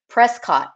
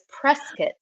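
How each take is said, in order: First: It is said the outsider's way. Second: It is said the local way. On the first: The speaker is not from the town. The speaker calls it wrong. "I've always pronounced it Prescott, Arizona, but I am from the South, so we don't say everything correctly" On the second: The speaker is from the town. The speaker calls it right. "So it's Prescott"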